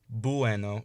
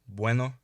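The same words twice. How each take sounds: First: The u is a full vowel, adding a syllable. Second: The u is a quick w-like glide. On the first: The speaker calls it wrong. "instead of saying bueno" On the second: The speaker calls it right. "say bueno"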